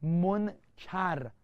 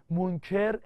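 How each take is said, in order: First: منکر said monkar, both vowels a, drawn out slowly; monkar, meaning ugly. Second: منکر said monker with e in the second syllable and a slight rise; monker, meaning denier. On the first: Teacher drilling students on منکر pronounced monkar, slow. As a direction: stretch منکر out as mon-kar with a falling end. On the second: Teacher contrasting the second reading of منکر as monker. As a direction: say منکر as mon-ker, lifting the end. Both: Shown as a demonstration.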